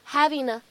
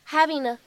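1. 在 'a' 前面连读时是 n 音。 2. 在 'a' 前面连读时是 n 音。

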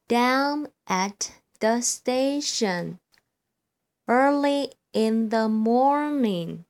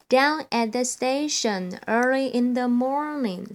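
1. 语速慢而稳。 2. 语速最快。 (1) "我现在呢，先来朗读一遍。" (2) "第三遍最快咯。"

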